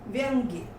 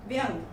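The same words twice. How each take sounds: First: Said in the usual way. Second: व्यंग stopping on "ng", no final "y"; wrong ending. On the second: Shown as a demonstration. Teacher reads the error list, wrong ending in व्यंग. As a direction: say व्यंग without the "ya". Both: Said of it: "व्यंजन संबंधी हैं".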